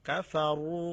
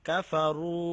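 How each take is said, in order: No difference in how they are said.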